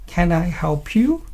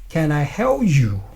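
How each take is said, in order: First: The question sounds warm and kind. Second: The question sounds curt and rude. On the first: The listener feels welcomed and appreciated. The speaker calls it right. "He will appreciate your kindness" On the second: The listener feels annoyed and irritated. The speaker calls it wrong. "they will get annoyed, they will get irritated"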